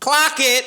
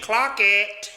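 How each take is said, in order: First: High, loud catchphrase correction; mocking shout. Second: Mock quote. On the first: Mockingly corrects critic's quote of phrase. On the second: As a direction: act out the slang to ridicule it. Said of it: "think I'm out here saying".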